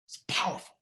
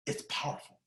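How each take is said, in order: First: Whispered, breathy emphasis; hushed whisper. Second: Barely audible whispered echo; fainter whisper. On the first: Speaker whispers key phrase to audience, hushed. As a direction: let it fall to a whisper. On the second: Echoing his own words to the audience, barely whispered. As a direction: fade it almost to nothing. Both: Real, not acted. Quiet repeat of key line.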